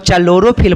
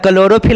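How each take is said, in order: First: The word begins with a 'ch' sound. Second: The word begins with a 'k' sound. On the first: "उसको चलोरोफिल पढ़ते थे" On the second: "क्लोरोफिल नहीं पढ़ते थे"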